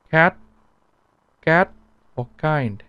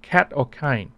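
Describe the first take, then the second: First: "Cat" and "kind" with barely any breath; gentle unaspirated "cat" and "kind"; soft Vietnamese K. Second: "cat" and "kind" with a strong breath puff; English "cat", "kind", puffed K; aspirated English K. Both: Shown as a demonstration. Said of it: "Not cat or kind".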